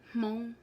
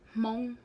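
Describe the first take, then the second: No difference in how they are said.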